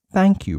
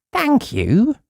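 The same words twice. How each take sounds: First: Said in the usual way. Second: High bright thank-you; mean it for once; cheerful thanks. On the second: Acted. Uppity thanking the newspaper man, high and glad.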